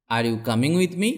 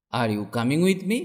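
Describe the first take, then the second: No difference in how they are said.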